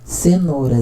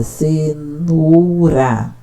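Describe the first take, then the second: First: Said in the usual way. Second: "cenoura" stretched out syllable by syllable, very slow. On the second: Shown as a demonstration. Teacher demonstrating a child's reading, slowly sounding out "cenoura". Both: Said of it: "Cenoura tem três sílabas".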